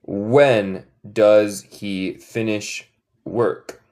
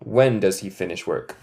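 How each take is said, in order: First: "When does he finish work?" very slow; slow model question. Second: Said in the usual way. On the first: Shown as a demonstration. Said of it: "¿Cuándo él termina su trabajo?".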